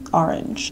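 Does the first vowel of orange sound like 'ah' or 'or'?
ah. The first vowel sounds like 'ah'. "but like in general I'll be like"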